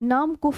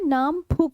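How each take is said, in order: First: The last syllable is 'kuf', starting with k. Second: The last syllable is 'phuk', starting with ph. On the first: The speaker calls it wrong. "नाम कुफ नहीं है" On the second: The speaker calls it right. "नाम फुक है"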